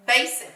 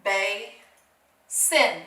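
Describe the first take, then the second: First: Said in the usual way. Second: "Ba-sin" as BAY, pause, SIN; syllable by syllable. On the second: Shown as a demonstration. Teacher blending syllables for pupils, "Ba-sin" broken apart. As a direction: say "Ba-sin" slowly in two separate parts. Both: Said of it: "Let's put them together".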